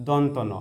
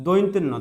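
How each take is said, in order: First: দন্ত ন as donto no, plain o vowels; careful model reading of দন্ত ন; correct letter name. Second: দৈন্ত্য ন as "dointenno" with oi; common misreading. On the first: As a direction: say দন্ত with no oi glide, then ন. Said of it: "এটা সঠিক উচ্চারণ হচ্ছে". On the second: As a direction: say দৈন্ত্য with an oi glide. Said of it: "এটাকে আমরা দৈন্ত্য ন বলি". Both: Shown as a demonstration.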